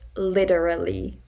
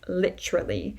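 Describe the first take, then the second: First: Every syllable is pronounced clearly and separately. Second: The syllables are merged together into fewer sounds. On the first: The speaker calls it right. "where you actually pronounce each syllable" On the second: The speaker calls it wrong. "meshing or merging the sounds together"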